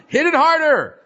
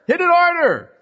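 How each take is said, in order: First: High pushed command, mock frustration; angry urge. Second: Higher, louder mock-angry command; angrier urge. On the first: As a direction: act out the hothead's urge to hit harder. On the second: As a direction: push it further, like anger escalating. Repeated angrier.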